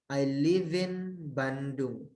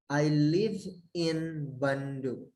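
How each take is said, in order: The two takes are said the same way.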